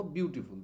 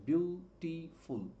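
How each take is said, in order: First: Said in the usual way. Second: beautiful slowly broken into three separate syllables. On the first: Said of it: "উচ্চারণ করতে গেলে আমার থামতে হচ্ছে". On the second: Shown as a demonstration. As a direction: stop between each syllable of beautiful. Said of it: "বিউটিফুলকে উচ্চারণ করতে গেলে আমার থামতে হচ্ছে".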